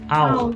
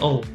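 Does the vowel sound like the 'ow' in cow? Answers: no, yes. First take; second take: yes; no. First: The vowel is the 'ow' of cow. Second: The vowel is not the 'ow' of cow. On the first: The speaker calls it right. "the pronunciation is ow" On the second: The speaker calls it wrong. "not owl"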